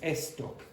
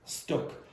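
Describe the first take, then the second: First: An extra vowel sound comes before the s. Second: The word begins directly with the s sound. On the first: The speaker calls it wrong. "you said estoc instead of stuck" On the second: The speaker calls it right. "instead of stuck"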